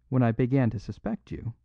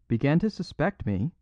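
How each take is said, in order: First: Said in the usual way. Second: Higher, incredulous echo; increased intensity. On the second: A narrator's reading. Outlaw repeating the priest's words, with increased intensity. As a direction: throw it back as an intense question. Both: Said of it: "repeated the outlaw with increased intensity".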